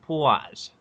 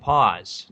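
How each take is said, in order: First: The word is said with a New York accent. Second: The word is said without a New York accent. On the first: The speaker calls it wrong. "not pause" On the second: The speaker calls it right. "That's how you say it. It's fucking pause"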